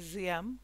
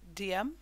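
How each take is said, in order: First: The name begins with a Z sound. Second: The name begins with a D sound. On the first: It is closer to the original pronunciation. "Ziem is another way that it is also pronounced, probably the more correct way" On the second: It matches the spelling. "we will pronounce it Diem just to make it easier to remember how to spell it"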